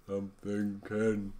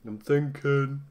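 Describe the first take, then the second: First: Much softer, very slow yawning drawl; mock yawn. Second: Lightly voiced, slightly higher musing; a half-hearted stab at a pondering statue; mock thinking statue. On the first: Streamer imitating the Night at the Museum statue with a slow mock yawn. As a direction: stretch it out through a fake yawn. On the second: Streamer imitating the thinking statue from Night at the Museum, lightly musing. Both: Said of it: "like I'm yawning".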